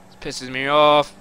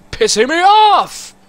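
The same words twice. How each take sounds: First: Said in the usual way. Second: Much higher and louder, slowed, exploding; angry shout. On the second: Real, not acted. Gamer losing it mid-mission, furious shout. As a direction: let the anger burst out. Rage building at game.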